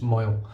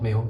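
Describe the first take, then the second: First: The first vowel sounds like 'moy'. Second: The first vowel sounds like 'may'. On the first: The speaker calls it right. "it's definitely pronounced Moyle" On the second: The speaker calls it wrong. "it's not Mayo"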